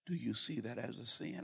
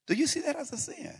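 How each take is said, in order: First: Light, gentle question. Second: High, judging, accusing question; condescending. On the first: Pastor asking the waiter lightly, not condescending. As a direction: ask it lightly, not heavy. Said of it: "I said it light". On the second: Pastor showing how he could have scolded the waiter, condescending. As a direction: rise up high and look down on him. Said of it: "I could have said". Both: Shown as a demonstration.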